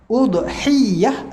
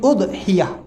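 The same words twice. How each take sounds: First: The y sound is held long and doubled. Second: The y sound is short and single. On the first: "dua-dua boleh syaddah ya" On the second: "takhfifkan ya"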